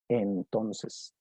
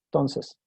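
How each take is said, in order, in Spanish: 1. Cada sílaba de la palabra se pronuncia completa. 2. La palabra se acorta, con sílabas omitidas. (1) "nadie dice así con todo el valor de la palabra" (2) "van a reducirla, van a decir cosas como entonces"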